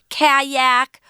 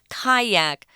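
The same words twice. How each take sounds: First: The first syllable does not sound like 'kai'. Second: The first syllable sounds like 'kai'. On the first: This is how the spelling might suggest reading it. The speaker calls it wrong. "It looks like kayak" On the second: This is how people actually say it. The speaker calls it right. "Why are they saying kai? ... that's how we say that word"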